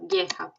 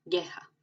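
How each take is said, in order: First: "Gueja" with hard g before e; gu sound. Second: "Gueja" hard g again; gu sound repeated. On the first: Teacher shows gu before a vowel. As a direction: say "Gueja" as geh-zha. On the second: Teacher repeats the gu example. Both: Shown as a demonstration. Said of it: "es como en español".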